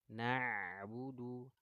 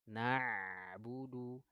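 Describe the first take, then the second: The two takes are said the same way.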